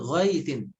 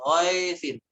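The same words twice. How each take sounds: First: The ai glide is pronounced fully and clearly. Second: The ai glide is cut short and reduced. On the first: The speaker calls it right. "Harf linnya dibaca dengan sempurna" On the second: The speaker calls it wrong. "jangan dibaca ghaithin"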